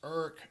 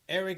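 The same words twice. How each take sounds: First: The name is said in a Washington DC pronunciation. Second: The name is said in a standard pronunciation. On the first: "I'm gonna give you the D C pronunciation"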